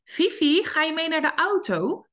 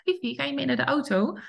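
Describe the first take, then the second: First: High, friendly sing-song question to the dog; lilting invitation to come to the car; sweet first call. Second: Light friendly question with a rise; the owner's first sweet invitation to the dog. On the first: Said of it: "die beginnen eigenlijk zo". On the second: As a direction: gently ask the dog. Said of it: "die eerste lieve vraag". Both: Shown as a demonstration.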